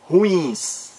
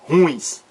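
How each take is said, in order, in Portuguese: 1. O acento está na última sílaba. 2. O acento está na primeira sílaba. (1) "O certo" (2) "E não é ruins. Errado"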